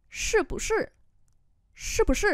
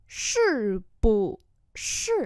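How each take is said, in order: First: Quick practice read. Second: Slow practice read. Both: Shown as a demonstration. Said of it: "từ chậm cho đến nhanh".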